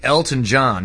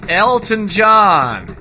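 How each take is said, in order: First: Said in the usual way. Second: Loud, high, drawn-out name; mock-grand holler, long last word; hammy exclamation. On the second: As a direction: belt out the name, stretching it slowly. Hammy repeat after naming him.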